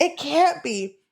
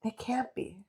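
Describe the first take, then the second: First: Higher-pitched dramatic disbelief; raised disbelief. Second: Very soft, stunned retelling; hushed disbelief. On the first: Voicing heroine hearing him at the door, raised disbelief. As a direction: lift it, fully voiced and incredulous. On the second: Voicing heroine who thought she killed him, hushed disbelief. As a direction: barely voice it, as if stunned. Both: Retold or imitated.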